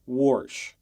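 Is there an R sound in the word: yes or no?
yes. It is said with an added R sound.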